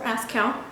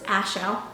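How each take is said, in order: First: The middle consonant is pronounced as a k. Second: The middle consonant is silent, no k sound. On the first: The speaker calls it wrong. "it's not Aschel or Askell" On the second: The speaker calls it right. "silent C"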